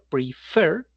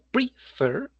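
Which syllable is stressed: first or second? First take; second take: second; first. First: The stress is on the second syllable. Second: The stress is on the first syllable. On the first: The speaker calls it right. "es la pronunciación" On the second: The speaker calls it wrong. "y no prefer"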